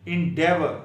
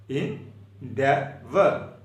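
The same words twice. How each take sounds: First: Said in the usual way. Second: Endeavor stretched very slowly with a rising end; slow, drawn-out endeavor. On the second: Shown as a demonstration. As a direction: draw out endeavor for the class. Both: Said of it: "E N D E A V O R".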